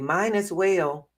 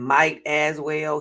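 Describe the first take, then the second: First: The first word is said as 'mine'. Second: The first word is said as 'might'. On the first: The speaker calls it wrong. "he would say" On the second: The speaker calls it right. "Instead of saying might as well"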